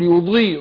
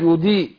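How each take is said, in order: First: The ض is heavy and emphatic, with full tafkhim. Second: The ض is thin and sounds like a plain d. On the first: The speaker calls it right. "ضيء ضيء يبقى مفخمه" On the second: The speaker calls it wrong. "نزلت الضاد في الكسر هقول هتبقى دال"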